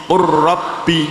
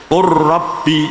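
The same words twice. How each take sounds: No difference in how they are said.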